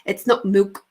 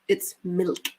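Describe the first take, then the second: First: "milk" said the careless way, vowel off; mock example of mispronounced "milk"; wrong pronunciation. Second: "milk" said neatly and correctly; prim corrected "milk"; proper articulation. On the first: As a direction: demonstrate a sloppy "milk", louder, as the one to avoid. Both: Shown as a demonstration. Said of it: "You have to speak properly".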